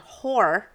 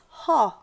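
First: The name is said without an Australian accent. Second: The name is said with an Australian accent. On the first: "their name is Allison Hoare" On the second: "when, you know, the Australian accent happens, it's Haw"

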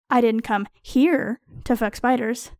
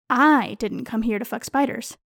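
First: The word "here" carries the strongest stress. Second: The word "I" carries the strongest stress. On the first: I do that elsewhere, not in this place. "I fuck spiders at other times, in more suitable places" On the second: Someone else, not me, came for that. "I am accusing someone else of being present solely to fuck spiders"

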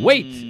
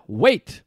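First: The word is said in an angry tone. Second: The word is said in a calm tone. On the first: They are annoyed at being asked again. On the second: They are simply asking him to hold on.

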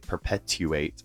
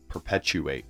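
First: The middle sound is pronounced like t. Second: The middle sound is pronounced like ch. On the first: "We don't say perpetuate" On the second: "we do say it when it's a TU in the middle of words"

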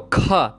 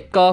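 First: The k is released with a strong puff of air. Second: The k is released with no puff of air. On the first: "you're going to feel lots of air coming out of your mouth" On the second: "non-aspirated, basically means you're not breathing any air out of your mouth"

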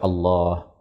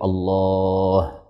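First: The vowel in 'lah' is held for two beats. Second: The vowel in 'lah' is held extra long. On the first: "Boleh dibaca Allah" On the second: "atau lebih panjang dari itu"

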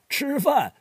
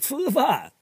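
First: It is said in standard Mandarin, with retroflex sounds. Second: It is said with a Wuhan accent, without retroflex sounds.

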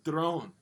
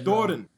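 First: The first vowel is skipped altogether. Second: The first vowel is clearly pronounced. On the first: The speaker calls it wrong. "the other times you were literally like drone" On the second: The speaker calls it right. "It's more like that. But that do sound is needed"

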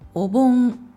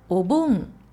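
First: It has the pitch pattern of the word 'tray'. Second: It has the pitch pattern of the word 'festival'. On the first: A tool for carrying plates. "ピッチが違うのがわかりますか？ お皿を運ぶための道具" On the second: A Japanese custom honoring ancestors. "日本の風習です。"

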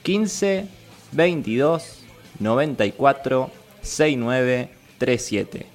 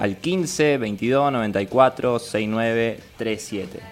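First: The number is read more slowly. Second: The number is read at normal speed.

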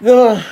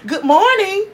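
First: It is said flatly with a sigh. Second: It is said with lots of energy.

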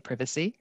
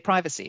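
First: It is said with a British pronunciation. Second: It is said with an American pronunciation. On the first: "from the UK, you would say privacy" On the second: "if you're from the US, you'd say privacy"

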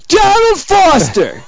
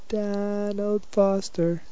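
First: The name is yelled loudly. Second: The name is said in a plain, quiet voice.

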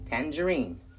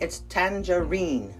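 First: The stress is on the first syllable. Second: The stress is on the last syllable. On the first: This is the United States pronunciation. "In the United States, it's on the tan" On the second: This is the UK pronunciation. "So in the UK, the emphasis is on the final syllable, the reen"

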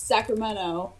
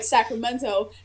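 First: The middle T is dropped, Californian style. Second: The middle T is clearly pronounced.

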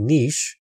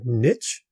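First: It is said with a non-American pronunciation. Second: It is said with an American pronunciation.

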